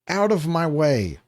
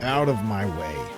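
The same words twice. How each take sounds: First: It is said in the previous character's voice. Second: It is said in a different character voice.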